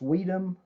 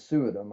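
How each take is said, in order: First: The name begins with a 'swee' sound. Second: The name begins with a 'sui' sound. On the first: Other people say the name this way. "I've heard it pronounced Sweedum" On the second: This is how the speaker has always said it. "I'm going to play it safe and go with Suidam"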